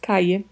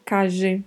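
First: The double L sounds like English y. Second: The double L sounds like the s in measure. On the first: "O duplo L pode ter som de I" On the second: "Pode ter som de J"

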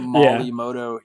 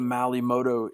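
First: The first word sounds like 'Molly'. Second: The first word sounds like 'Malay'. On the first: "he calls it Molly" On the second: "I'm saying it wrong for all I freaking know"

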